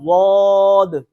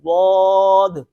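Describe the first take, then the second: Both takes have the same delivery.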